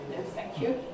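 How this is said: It is said in a sharp, rude tone. The helper is told to mind their own business. The speaker calls it wrong.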